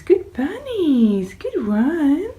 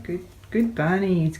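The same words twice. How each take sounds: First: High, louder, slow drawn-out praise; pet praise. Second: Said in the usual way. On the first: Real, not acted. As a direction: stretch the praise out high for the bunnies. Praising rabbits.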